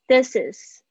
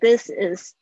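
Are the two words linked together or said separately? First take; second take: linked; separate. First: The two words are linked into one unit. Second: The two words are said separately, without linking. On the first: The speaker calls it right. "注意一下This is 有一个连音" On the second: The speaker calls it wrong. "不要念成This is Daisy"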